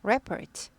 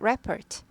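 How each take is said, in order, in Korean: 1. 강세는 첫 번째 음절에 있어요. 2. 강세는 첫 번째 음절에 있어요.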